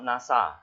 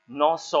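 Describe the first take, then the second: First: The first vowel is an 'ah' sound. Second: The first vowel is an 'oh' sound. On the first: The speaker calls it wrong. "Not nasa" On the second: The speaker calls it right. "Nosor is pronounced that word that way"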